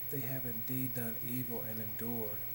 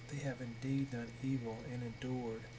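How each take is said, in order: No difference in how they are said.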